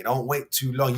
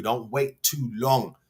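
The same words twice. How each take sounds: First: Said in the usual way. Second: Slow, spelled-out "Don't wait too long"; slow emphatic advice. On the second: Shown as a demonstration. Fan advising the striker, slowly and with emphasis. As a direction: lay each word down slowly to drive it home.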